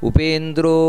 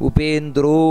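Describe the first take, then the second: No difference in how they are said.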